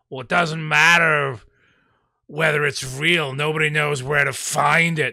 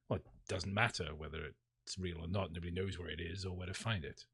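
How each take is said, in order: First: It is said in an overdone, dramatic way. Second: It is said plainly, a little defeated.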